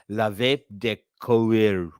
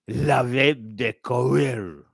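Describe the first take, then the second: First: It is read with a plain English accent. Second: It is said with a put-on French accent.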